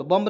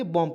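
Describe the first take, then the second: First: बॉम्ब with the final B pronounced; wrong pronunciation, B sounded. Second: बॉम्ब read as "bom", B dropped; silent B. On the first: Teacher shows what not to read, बॉम्ब with B sounded. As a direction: let the B be heard ending बॉम्ब. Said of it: "नहीं पढ़ेंगे". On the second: Teacher corrects the learners' reading, बॉम्ब with silent B. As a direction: end बॉम्ब on M with no B. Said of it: "पढ़ेंगे". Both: Shown as a demonstration.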